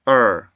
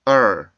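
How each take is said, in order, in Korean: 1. 이 모음은 R 울림이 있는 끝소리가 있어요. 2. 이 모음은 R 울림이 있는 끝소리가 있어요.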